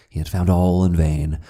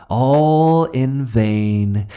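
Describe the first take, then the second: First: Said in the usual way. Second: Higher, louder, slowly drawn; anguished cry. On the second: A narrator's reading. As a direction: stretch out all in despair. Repeat escalates.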